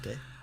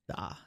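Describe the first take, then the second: First: The vowel glides like 'ay' in 'day'. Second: The vowel is a plain open 'ah' sound. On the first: The speaker calls it wrong. "not Day" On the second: The speaker calls it right. "Da, not Day"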